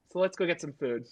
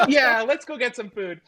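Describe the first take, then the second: First: Said in the usual way. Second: High, loud, chuckling agreement; mock laughing through tears. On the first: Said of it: "person talking to them is like". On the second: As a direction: act cheered up, laughing as you agree. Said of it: "they both laugh".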